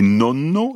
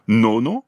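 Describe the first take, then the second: First: Nonno avec le n tenu; n double italien. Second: Nono avec un n bref; n simple italien. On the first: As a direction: appuyez longuement le n de nonno. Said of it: "avec deux N". (nonno, n géminé bien long) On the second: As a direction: dites nono sans allonger le n. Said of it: "ça veut dire neuvième". (nono, n simple à l'italienne) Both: Shown as a demonstration.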